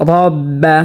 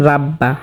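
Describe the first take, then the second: First: রব্বা with a heavy, full-mouthed r and short a; রব্বা pronounced heavy, not thin; thick r in রব্বা. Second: রাব্বা with a thin r and open aa; the common mistaken রাব্বা; রাব্বা said light, as a wrong example. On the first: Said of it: "রকে মোটা করে পড়তে হবে". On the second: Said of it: "রাব্বা পড়লে শুদ্ধ হবে না". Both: Shown as a demonstration.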